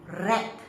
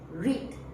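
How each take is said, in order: First: It is said with the past-tense pronunciation. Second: It is said with the base-form pronunciation. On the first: The action happened before now. "see the spelling is the same, but the pronunciation changes" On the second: The action happens in the future. "It is back to the base form. So the pronunciation follows"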